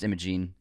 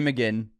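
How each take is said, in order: First: The last syllable has a long vowel, like 'jeen'. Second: The last syllable has a short vowel, like 'jen'. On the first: The speaker calls it right. "It's Imogene. That's how you say that name" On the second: The speaker calls it wrong. "you called her"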